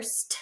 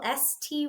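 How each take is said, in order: First: "st" as one blended sound, no letter names, very soft. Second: Said in the usual way. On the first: Shown as a demonstration. Teacher modelling a student blending "st" softly. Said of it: "S T would stay together".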